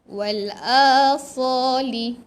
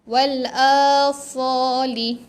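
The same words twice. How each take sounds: The two takes are said the same way.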